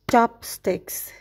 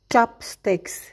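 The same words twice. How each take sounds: The two takes are said the same way.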